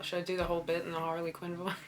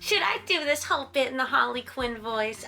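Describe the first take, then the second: First: It is said in her normal voice. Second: It is said in a Harley Quinn voice.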